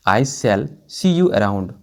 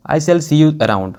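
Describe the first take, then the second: First: Even slower, settling down at the end; slower repeat. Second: Very slow, every word spaced out; slow model sentence. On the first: Teacher repeating the sentence for students, slower and falling. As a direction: repeat "I shall see you around" slower still. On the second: Teacher giving students the English version, slow and clear. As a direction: say "I shall see you around" slowly and clearly. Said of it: "तो कैसे कहेंगे". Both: Shown as a demonstration.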